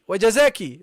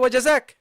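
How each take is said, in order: First: The word ends with a final vowel sound. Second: The word ends on a consonant, vowel dropped. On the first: The feminine case ending is pronounced. The speaker calls it wrong. "The the the sisters always wajazaki" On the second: The case ending is dropped when stopping. The speaker calls it right. "you don't have to pronounce the case endings. Okay, you say wajazak"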